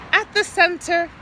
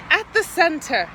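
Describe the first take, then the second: No difference in how they are said.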